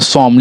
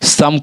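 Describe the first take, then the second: First: The vowel sounds like 'o' in 'go'. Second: The vowel sounds like 'u' in 'sun'. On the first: The speaker calls it wrong. "हम यहाँ इसे पढ़ते हैं क्या, सोम" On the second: The speaker calls it right. "सोम ना पढ़ाकर सम का उच्चारण देता है"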